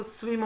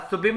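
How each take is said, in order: First: स्विम said in one go with a W glide; one-syllable स्विम. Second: स्विम wrongly said as "su-bim", with a B; mispronounced स्विम. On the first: Teacher showing how it is read, स्विम as one syllable. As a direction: run the S and W of स्विम together. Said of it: "एक बार में पढ़ते हैं इसको". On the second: Teacher showing the wrong reading, स्विम as "su-bim". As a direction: break स्विम into two syllables, su-bim. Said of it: "स्विम नहीं होता". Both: Shown as a demonstration.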